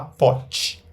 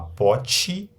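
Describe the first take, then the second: First: The word ends on the consonant, vowel dropped. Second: The word ends with a final vowel sound. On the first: "terminar aí na consoante" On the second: "ter uma vogal"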